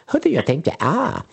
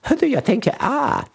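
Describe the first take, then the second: First: It is said in a silly, ridiculous voice. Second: The same.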